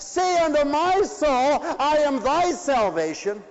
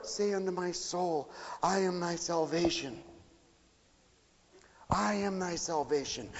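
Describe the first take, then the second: First: High, loud proclaiming of the verse; ringing preached plea. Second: Much softer, almost murmured verse; hushed prayerful repeat. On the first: Preacher to congregation, loud preached plea. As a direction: call the verse out to the hall. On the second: Preacher closing the sermon, hushed prayerful repeat. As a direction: let the words sink in softly. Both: Acted.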